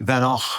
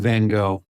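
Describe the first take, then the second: First: The name is said the Dutch way. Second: The name is said the American way. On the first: "the folks that I um, know in the Netherlands say Van Gogh" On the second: "we kind of Americanize everything"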